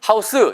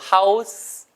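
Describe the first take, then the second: First: The word ends with a full extra 'seu' syllable. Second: The word ends with a faint escaping hiss. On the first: The speaker calls it wrong. "house 이거 스 아니에요" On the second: The speaker calls it right. "살짝 나, 새어나가는 정도"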